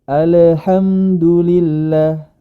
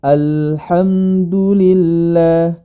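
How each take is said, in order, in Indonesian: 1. Bunyi L dipantulkan dengan gema. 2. Bunyi L mengalir halus tanpa gema. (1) "ini kurang tepat" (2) "suaranya al-inhiraf"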